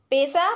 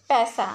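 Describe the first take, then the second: First: पैसा said as "pesa" with a closed e; पैसा with a thin, closed e, the wrong way; wrong pronunciation. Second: पैसा said with an open ai, as "paisa"; पैसा with a broad, open ai vowel, the correct way; correct pronunciation. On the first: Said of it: "पैसा अशुद्ध शब्द है". (पैसा को "पेसा" बोलें, बंद ए के साथ) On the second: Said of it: "शुद्ध शब्द है". (पैसा को खुले ऐ के साथ बोलें) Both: Shown as a demonstration.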